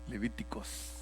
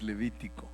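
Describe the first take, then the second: First: The word ends with an s sound. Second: The word ends without an s sound. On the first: The speaker calls it wrong. "algunos lo pronuncian como Spanglish" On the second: The speaker calls it right. "pero es Levítico"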